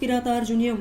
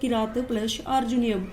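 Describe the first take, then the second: First: The word is said smoothly as one unit. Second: The word is split into two separated parts.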